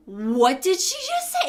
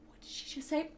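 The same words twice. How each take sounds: First: Slow, higher, baffled question; mock bewilderment. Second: Very quiet, baffled question; hushed aside. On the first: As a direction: act out being stunned, stretching the words. Stunned reaction to garbled order. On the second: Retold or imitated. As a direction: imitate a coworker's under-the-breath question. Coworker turns to her, off headset.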